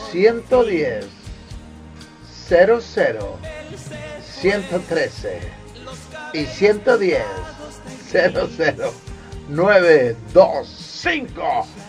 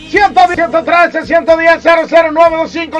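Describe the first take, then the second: First: The numbers are said slowly. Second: The numbers are said quickly.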